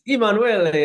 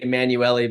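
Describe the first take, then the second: First: The name is pronounced the Italian way. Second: The name is pronounced the English way. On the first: This is the family's original form of the name. "it's Italian" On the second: This is how the family says the name today. "now we just say"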